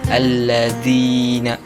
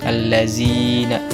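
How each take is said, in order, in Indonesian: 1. Konsonan di tengah itu bunyi th lembut. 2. Konsonan di tengah itu bunyi z. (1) "seharusnya dibaca" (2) "seolah-olah dia sedang membaca huruf Z"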